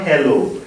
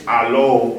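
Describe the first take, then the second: First: "hello" with an h, like English; plain English "hello" with the h sound; not hello. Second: "hello" said "alo", no h sound; alo without h. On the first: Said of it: "It's not". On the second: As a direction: drop the h: "alo". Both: Shown as a demonstration.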